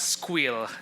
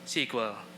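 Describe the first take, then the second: First: It is said as one word, 'squeal'. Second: It is said as one word, 'sequel'. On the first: "I hope nobody pronounces pronounces it as squeal" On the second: "who pronounces it as sequel?"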